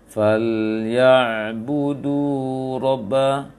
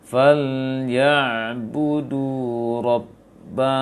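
First: The doubled b is said quickly, not held. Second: The doubled b is held for a moment. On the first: The speaker calls it wrong. "jangan terlalu cepat bacanya nanti ... itu belum" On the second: The speaker calls it right. "jadi tahan tasydidnya"

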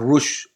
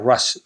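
First: The vowel sounds like the one in 'push'. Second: The vowel sounds like the one in 'cup'. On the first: "cambia la pronunciación de la primera palabra para que suene como más impactante" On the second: "se pronunciaría Rush realmente"

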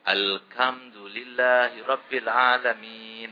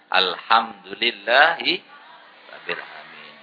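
First: The h sound is pronounced as a k. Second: The h sound is pronounced as a breathy h. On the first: The speaker calls it wrong. "Ada juga orang Jawa baca ha itu kaf" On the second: The speaker calls it right. "Yang benar adalah"

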